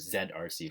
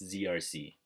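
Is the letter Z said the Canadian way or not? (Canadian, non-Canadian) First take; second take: Canadian; non-Canadian. First: The letter Z is said the Canadian way. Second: The letter Z is said the non-Canadian way.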